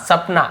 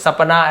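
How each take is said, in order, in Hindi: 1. p और n के बीच कोई स्वर नहीं सुनाई देता। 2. p और n के बीच एक छोटा स्वर सुनाई देता है। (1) "सपना ऐसे पढ़ते हो" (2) "सपना ऐसे नहीं पढ़ते"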